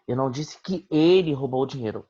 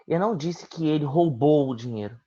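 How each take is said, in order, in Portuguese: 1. A palavra "ele" tem o acento principal. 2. A palavra "roubou" tem o acento principal. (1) "Alguém roubou, mas não ele" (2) "Eu disse que ele pegou, mas vai devolver"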